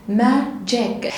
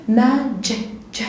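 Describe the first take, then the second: The two takes are said the same way.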